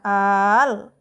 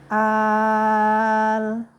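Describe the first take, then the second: First: The long vowel is pushed out with a sharp jolt. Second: The long vowel is held level without a jolt. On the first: The speaker calls it wrong. "jangan dihentak ... salah itu" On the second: The speaker calls it right. "Jadi bacanya datar"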